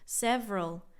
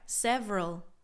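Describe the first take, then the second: First: The word is squeezed into two syllables. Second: The word is squeezed into two syllables.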